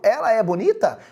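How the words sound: It is said with a question intonation. It asks whether she is pretty. "para eu transformar em pergunta... na fala muda a entonação"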